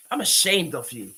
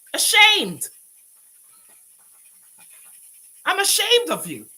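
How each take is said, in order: First: Said in the usual way. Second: "ashamed" yelled much higher and louder; a real furious shout; shouted shame. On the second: Real, not acted. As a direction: blast "I'm ashamed of you" at her.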